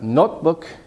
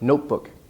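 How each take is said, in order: First: The first vowel is short. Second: The first vowel is long. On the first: The speaker calls it wrong. "not notebook" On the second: The speaker calls it right. "It's a long vowel"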